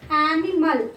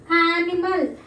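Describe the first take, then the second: No difference in how they are said.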